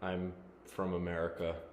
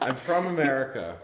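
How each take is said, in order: First: It is said in a flat, monotone voice. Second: It is said in a lively, enthusiastic voice. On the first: The speaker calls it wrong. "Care to make it less monotone?" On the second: The speaker calls it right. "There's that enthusiasm we're looking for"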